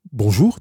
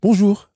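First: Bonjour posé du renard, plus bas. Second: Petit prince poli, voix nettement plus haute; un bonjour bien poli, lancé plus haut et plus fort. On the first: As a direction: saluer posément en renard, sans monter haut. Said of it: "dit le renard". (salutation posée du renard) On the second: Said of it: "répondit poliment le petit prince". (bonjour poli, haut perché) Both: A narrator's reading.

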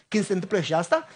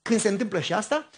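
No difference in how they are said.

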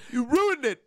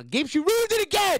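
First: Mock outburst. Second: High, loud playful accusation; mock outburst. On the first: Echoes the mock blame. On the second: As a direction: whine it at your friend in fun. Mock blaming friend for lost thought.

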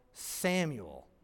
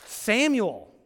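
First: Said in the usual way. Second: Samuel said louder and higher, falling firmly; emphatic name call. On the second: Shown as a demonstration. Preacher showing how a reader would stress the name, with emphasis. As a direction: call Samuel with strong emphasis to get his attention. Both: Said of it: "for the reader to be like".

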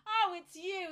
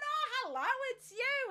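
First: Higher, louder, mock-weary oh; wry recognition. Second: Much higher, louder, sing-song hello; cheery greeting. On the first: Pathologist recognising the returning patient, mock-weary. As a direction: sound resigned to see her again. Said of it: "he's gone". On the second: Retold or imitated. Patient greeting the pathologist again, bright and high. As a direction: greet him brightly like an old friend. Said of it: "I've gone".

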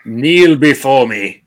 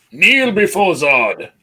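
First: Slow, louder commanding villain voice; booming arrogant alien overlord. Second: Higher, louder, slow villain command; booming arrogant alien overlord. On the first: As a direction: demand they kneel, booming and slow. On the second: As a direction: boom it like a conquering tyrant. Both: Retold or imitated. Quoting Zod in Superman debate.

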